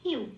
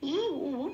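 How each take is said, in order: First: The two vowels are said quickly as one. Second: The two vowels are said slowly and separately.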